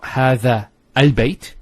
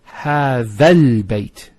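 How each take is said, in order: First: A separate glottal stop and 'al' start 'al-bayt'. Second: The vowel runs straight into 'lbayt' without a stop. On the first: The speaker calls it wrong. "it's not" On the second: The speaker calls it right. "You don't pronounce this Hamzat al-Wasl here. So, you go from this alif to this lam"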